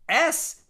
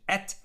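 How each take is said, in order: First: The word ends with an s sound. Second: The word ends with a t sound.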